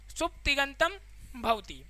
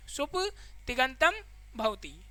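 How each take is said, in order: First: Said in the usual way. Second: सुप्तिगंतम drawn out slowly, then भवति softly; teacher slowly repeating the term सुप्तिगंतम for students; slow, spelled out. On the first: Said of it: "सुप्तिगंतम भवति (repeated slower)". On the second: Shown as a demonstration. Teacher rereads सुप्तिगंतम भवति slowly so the class catches it. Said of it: "सुप्तिगंतम भवति (first take)".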